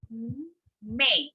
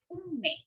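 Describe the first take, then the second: First: "Unmei" drawn out as u, m, mei; slowly, per syllable. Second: Said in the usual way. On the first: Shown as a demonstration. Teacher breaking down the word, slowly per syllable. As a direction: separate each syllable of "Unmei". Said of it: "slowly, per syllable".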